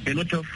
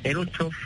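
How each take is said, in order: Both takes have the same delivery.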